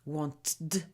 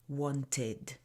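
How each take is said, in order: First: The ending is merged into the previous sound. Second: The ending is said as a separate syllable. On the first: The speaker calls it wrong. "If we don't separate these sounds" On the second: The speaker calls it right. "you need to separate"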